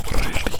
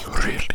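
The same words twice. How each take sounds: The two takes are said the same way.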